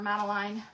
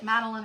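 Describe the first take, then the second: First: Second of two options, Madeline ending like "line". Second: First of two options, Madeline ending like "Lynn"; Madeline ending in -lin. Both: Shown as a demonstration. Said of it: "if you say it Madeline or Madeline".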